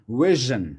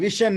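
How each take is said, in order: First: The middle consonant is a voiced 'zh' sound. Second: The middle consonant is a voiceless 'sh' sound. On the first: The speaker calls it right. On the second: The speaker calls it wrong.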